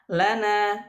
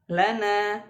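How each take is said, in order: Both takes have the same delivery.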